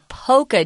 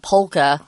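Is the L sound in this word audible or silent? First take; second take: silent; audible. First: The L sound is silent. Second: The L sound is clearly pronounced. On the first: The speaker calls it right. "The L is silent there" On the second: The speaker calls it wrong. "not polka"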